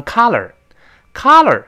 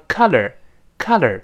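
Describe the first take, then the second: First: Color said as KAH-ler, like collar; wide-open ah in the first vowel of color; open ah mispronunciation. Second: Color as KUH-ler, short uh and American r; relaxed uh in color, tongue curled at the end; uh plus curled r. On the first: Teacher shows a mistake heard as collar, open ah in color. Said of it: "但有人把它读成color". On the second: Teacher models the word for colour, short uh in color. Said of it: "前面倒V字". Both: Shown as a demonstration.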